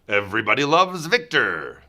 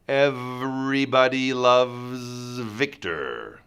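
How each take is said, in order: First: The phrase is said at normal speed. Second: The phrase is said slowly and deliberately.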